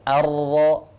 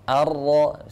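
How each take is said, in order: The two takes are said the same way.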